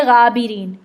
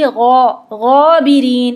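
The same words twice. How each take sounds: First: Said in the usual way. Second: गौबिरीन with a full back-tongue गौ, slow; heavy Arabic ghain. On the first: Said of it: "Urdu में हम कहेंगे". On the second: Shown as a demonstration. Teacher showing Arabic ghain against Urdu, heavy and slow. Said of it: "ज़बान ... पीछे से उठेगी".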